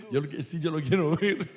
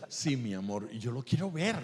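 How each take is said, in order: First: "ver" lifted with louder, eager push; much louder retake. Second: Said in the usual way. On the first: Retold or imitated. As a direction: say it again, far louder and keener. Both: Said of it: "le dije".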